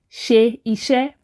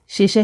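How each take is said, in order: First: Two separate words, with both vowels kept. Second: One merged word, with the middle vowel dropped. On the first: "if you try to say" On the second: "but ten times faster"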